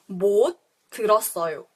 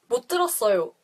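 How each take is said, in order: First: It is said slowly and carefully. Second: It is said at natural conversational speed.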